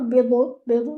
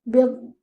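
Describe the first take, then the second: First: The final consonant is released with a short bounce. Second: The final consonant is held and stretched out. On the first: The speaker calls it wrong. "do not do qalqala, not bidu bidu, no, not like that" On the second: The speaker calls it right. "Try to like stretch the sound"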